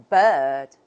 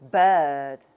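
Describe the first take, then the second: No difference in how they are said.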